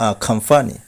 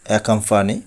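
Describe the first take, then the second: First: আখাম্পানি with "a" and aspirated "kham"; corrected pronunciation. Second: অ্যাকম্পানি opened with "e-kam"; common mispronunciation. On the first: Teacher correcting learners, আখাম্পানি as "a-kham-pani". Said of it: "সঠিক উচ্চারণ হবে". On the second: Teacher showing the common way, অ্যাকম্পানি starting "e". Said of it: "এই শব্দটিকে বলি". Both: Shown as a demonstration.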